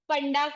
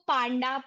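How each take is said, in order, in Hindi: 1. पहला स्वर छोटा है, जैसे 'uh'। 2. पहला स्वर लंबा है, जैसे 'aa'। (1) "सरनेम तो बहुत कॉमनली पंडा को" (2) "पांडा, पांडे, पांड्या, अलग अलग"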